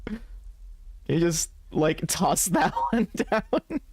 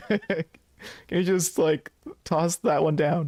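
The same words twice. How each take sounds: First: High, drawn-out plea broken by laughter; half-laughing mock plea. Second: Higher, drawn-out little plea; mock pitiful. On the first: Player reads a goofy cigarette plea, half-laughing. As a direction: plead playfully, stretching it out and cracking up. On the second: Player begs for the cigarette, mock pitiful. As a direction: beg pitifully, in play, dragging out the last words. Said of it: "the pitiful one".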